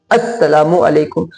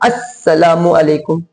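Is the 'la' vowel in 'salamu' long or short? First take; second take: short; short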